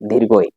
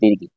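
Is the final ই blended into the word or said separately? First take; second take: separately; blended. First: The final ই is said as its own syllable. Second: The final ই is blended into the word. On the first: The speaker calls it right. "আসলে হবে" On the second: The speaker calls it wrong. "আমরা অনেকে বলি"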